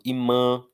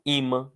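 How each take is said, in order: First: Imã wrongly stressed on the last syllable, MÃ; stress moved to MÃ. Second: Imã with the first syllable I strong; stress on I. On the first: Teacher shows how nobody says this word, stress on MÃ. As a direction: say i-MÃ, strong ending. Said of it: "não falo imã". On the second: Teacher shows the usual imã, stress on I. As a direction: lean on the I of imã, weak ending. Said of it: "eu falo imã". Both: Shown as a demonstration.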